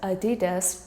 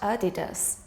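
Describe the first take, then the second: First: The stress is on the second syllable. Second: The stress is not on the second syllable. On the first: The speaker calls it right. "with the emphasis on the second syllable" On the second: The speaker calls it wrong. "not Adidas"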